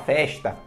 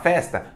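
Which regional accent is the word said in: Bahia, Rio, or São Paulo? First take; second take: Rio; São Paulo. First: It is said with a Rio accent. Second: It is said with a São Paulo accent. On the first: "no Rio de Janeiro a galera fala festa" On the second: "São Paulo você fala festa"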